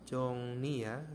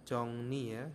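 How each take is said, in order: Both takes have the same delivery.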